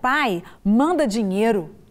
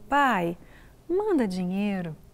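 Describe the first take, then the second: First: It is said in a rude, demanding tone. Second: It is said in a soft, affectionate tone. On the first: The son is being insolent. "Que menino atrevido!" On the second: The son is asking lovingly. "meu amor, não. Olha que ele falou"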